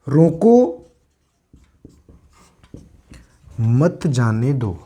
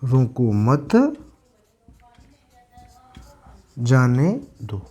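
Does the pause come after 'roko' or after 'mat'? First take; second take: after roko; after mat. First: There is a pause right after 'roko'. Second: There is a pause right after 'mat'. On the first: Stop the person; do not let them go. "जैसे ही comma का प्रयोग यहां हुआ तो इस वाक्य का भाव है कि उसको रोक लेना है" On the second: Do not stop the person; let them go. "और इसका है रोको मत, जाने दो"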